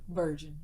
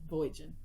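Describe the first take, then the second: First: Said in the usual way. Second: "Voyaging" as a twisted "virgin", with an oy vowel; playful mispronunciation. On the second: Shown as a demonstration. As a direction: say "Voyaging" in two syllables, like VOY-jun. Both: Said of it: "I say German instead of vir-, virgin".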